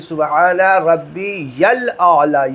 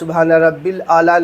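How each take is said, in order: First: It is said as 'rabbiyal', with a 'ya' sound. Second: It is said as 'rabbil', without a 'ya' sound. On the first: The speaker calls it right. "यल यल बोलना है" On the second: The speaker calls it wrong. "नहीं"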